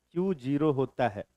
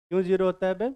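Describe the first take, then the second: First: "Q zero होता है" falling to a close; telling, not asking. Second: "क्यों zero होता है बे" rising at the end; question intonation. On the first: Teacher telling the class, "Q zero होता है" as a falling statement. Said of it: "बता रहे हैं". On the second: Teacher playing on Q sounding like why, "क्यों zero होता है बे" as a question. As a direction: ask it, lifting the final "बे". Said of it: "पूछ नहीं रहे, बता रहे हैं". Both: Shown as a demonstration.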